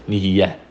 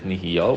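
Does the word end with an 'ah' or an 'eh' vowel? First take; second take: eh; ah. First: The word ends with an 'eh' vowel. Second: The word ends with an 'ah' vowel. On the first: "the way to say it is nihiya. Right, with a shva, with a segal, excuse me" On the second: "the proper way to say it is nihiya with a kametz"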